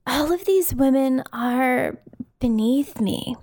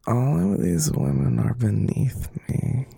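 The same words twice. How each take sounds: First: Crystal impression. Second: Slow, whispered vocal fry take; Crystal impression. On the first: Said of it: "give you a couple runs at it". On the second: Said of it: "Deep breath, [name]. You can do this". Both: Shown as a demonstration.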